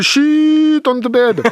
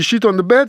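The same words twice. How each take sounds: First: The vowel in 'sheet' is exaggeratedly long. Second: The vowel in 'sheet' is short. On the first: It means the bed sheet. The speaker calls it right. "Faut que tu allonges exagérément les voyelles" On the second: It means something rude, not a bed sheet. The speaker calls it wrong. "si je prononce sheet pas comme il faut"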